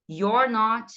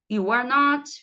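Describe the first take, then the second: First: YOU'RE NOT with "you're" as one syllable, falling; linked pronunciation. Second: YOU ARE NOT loud, word by word; model pronunciation. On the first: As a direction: model the contraction "you're not". (pronúncia contraída) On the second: (pronúncia modelo, articulada) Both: Shown as a demonstration. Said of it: "vão repetindo aí comigo".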